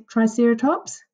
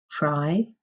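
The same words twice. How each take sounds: First: Said in the usual way. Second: Put-on "Tri-cer-a-tops" broken into four clear syllables for children to copy. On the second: Shown as a demonstration. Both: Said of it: "How do we say Triceratops?".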